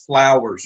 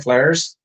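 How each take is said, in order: First: The word is fully enunciated with careful effort. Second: The word is said loosely in a relaxed local way. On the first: "You have to enunciate it" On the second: "that's how you pronounce it"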